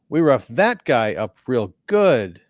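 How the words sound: The intonation sounds stilted and awkward. The speaker calls it wrong. "the intonation is just so awkward"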